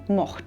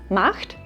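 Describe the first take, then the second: First: The vowel is a darkened 'o'. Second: The vowel is a clear open 'a'. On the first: "A in unserem Dialekt sehr oft zu einem O wird" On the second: "A in unserem Dialekt sehr oft zu einem O wird"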